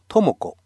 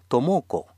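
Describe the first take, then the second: First: The stress is not on the middle syllable. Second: The stress is on the middle syllable. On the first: The speaker calls it wrong. "日本人ならトモコとアクセントを置いて話すかもしれませんが、これはエスペラントのアクセント規則に反します" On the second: The speaker calls it right. "トモコとすると確実に分かってくれるでしょう"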